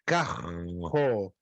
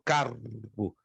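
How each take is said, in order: First: It is said in a Rio de Janeiro accent. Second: It is said in a southern Brazilian accent.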